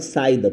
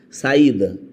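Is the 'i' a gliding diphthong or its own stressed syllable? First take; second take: diphthong; own syllable. First: The i glides weakly after the a. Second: The i is a separate, stressed syllable. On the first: The speaker calls it wrong. "Se não fosse o acento, você ia falar saída" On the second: The speaker calls it right. "Mas em saída ele não perde"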